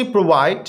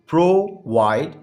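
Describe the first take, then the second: First: Said in the usual way. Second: प्रोवाइड split into two beats, pro-vide; syllable by syllable. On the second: Shown as a demonstration. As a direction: say प्रोवाइड with a gap after the first syllable. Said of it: "two syllable word है". (پرووائڈ کو دو حصوں میں توڑ کر بولیں)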